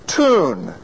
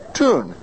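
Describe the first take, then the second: First: Tune with a y-glide, tyoon. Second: Tune as toon, no y glide; American Tune, toon; plain oo. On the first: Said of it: "How do you say the word T U N E?". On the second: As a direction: say Tune with a pure oo. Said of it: "we just have the oo". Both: Shown as a demonstration.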